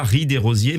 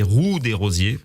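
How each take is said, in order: First: "riz des rosiers" with an "i" sound in "riz", as the mistaken form; "riz des rosiers" said with "riz" like rice, set up as the error; "riz" as the wrong pronunciation; wrong version. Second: "roue des rosiers" with "roue" said slowly, lower, like wheel; "roue" as the right pronunciation, slowly; correct version. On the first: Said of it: "on ne dit pas". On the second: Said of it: "mais roue des rosiers". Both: Shown as a demonstration.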